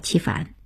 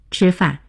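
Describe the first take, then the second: First: It is said with a Jiaodong dialect pronunciation. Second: It is said in standard Mandarin pronunciation.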